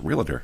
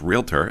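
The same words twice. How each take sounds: First: The word is said with an extra syllable added. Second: The word is said without an extra syllable. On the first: The speaker calls it wrong. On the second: The speaker calls it right.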